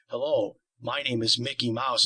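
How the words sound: It is said in a low voice.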